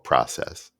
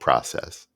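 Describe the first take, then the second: First: The word has an American pronunciation. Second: The word has an American pronunciation.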